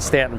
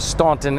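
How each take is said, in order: First: The first vowel is a short 'a' sound. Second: The first vowel is an 'aw' sound. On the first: The speaker calls it right. "the correct pronunciation is Stanton" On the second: The speaker calls it wrong. "not Staunton as it's spelled"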